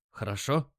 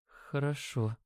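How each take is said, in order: First: Steady checking question with a rise; confident. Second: Very soft, faint reply; barely audible. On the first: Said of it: "ответил я уверенно". (уверенно, с вопросом) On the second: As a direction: agree in a tiny hushed voice. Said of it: "Её голос был едва слышен". (едва слышно) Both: A narrator's reading.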